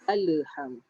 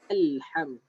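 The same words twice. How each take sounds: First: The L bounces with an added vowel after it. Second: The L closes cleanly with no added vowel. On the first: The speaker calls it wrong. "Bukan alham. Ala-ala salah" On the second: The speaker calls it right. "Tidak ada lantunan pada huruf lam. Jadi sepatutnya adalah alham"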